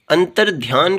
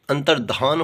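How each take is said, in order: First: अंतर्ध्यान with a y after dh; y-glide form. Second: अंतर्धान with dh straight into aa; no y glide. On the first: Teacher showing the faulty form, अंतर्ध्यान with y glide. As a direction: say अंतर्ध्यान as "antar-dhyaan". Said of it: "कुछ नहीं होता". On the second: Teacher giving the correct form, अंतर्धान without y. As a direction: say अंतर्धान as "antar-dhaan". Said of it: "होता है". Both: Shown as a demonstration.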